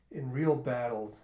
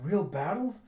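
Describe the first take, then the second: First: "in real battles" slow, with a falling end; plain statement. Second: "Real battles" higher, rising at the end; echo question. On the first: Swordsman says where he learned "real battles", falling statement. Statement, then echoed as question. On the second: Listener echoes "Real battles" back, questioning with a rise. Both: Retold or imitated.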